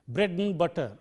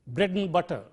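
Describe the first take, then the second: No difference in how they are said.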